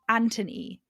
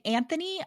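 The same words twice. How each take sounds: First: The middle consonant is a plain 't' sound. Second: The middle consonant is a 'th' sound. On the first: This is the British way of saying it. "sounds better in a British accent" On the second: This is the American way of saying it. "I think sounds better in an American accent"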